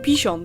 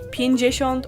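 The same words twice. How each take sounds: First: Even more sounds of the word are dropped. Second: Some sounds of the word are dropped. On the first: This is an even more casual form. "or even pięćdziesiąt sometimes" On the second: This is the usual everyday form. "we rather say pięćdziesiąt"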